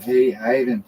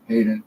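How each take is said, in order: First: "Hey, Hayden" with Hayden said HAH-den, open ah vowel; German pronunciation. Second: "Hayden" said HAY-den with a long ay vowel; English pronunciation. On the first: Showing viewers the German way to say Hayden, HAH-den. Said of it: "That's the German way to pronounce it". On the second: Contrasting it with the German way, English HAY-den. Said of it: "would be the English name". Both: Shown as a demonstration.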